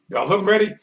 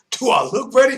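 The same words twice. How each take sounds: First: Said in the usual way. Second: Shout. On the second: Retold or imitated. Retold, shouted repeat.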